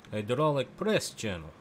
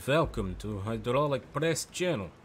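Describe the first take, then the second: First: Slower repeat in mock Russian accent. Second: Slow, heavy mock Russian accent. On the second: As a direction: drawl it like a Russian host. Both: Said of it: "I'm working on my Russian accent".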